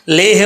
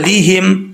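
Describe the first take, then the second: First: The first vowel is a mid 'e' sound. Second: The first vowel is a high 'ee' sound. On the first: The speaker calls it wrong. "लेहिम नहीं पढ़ना" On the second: The speaker calls it right. "लाम ज़ेर ली होता है"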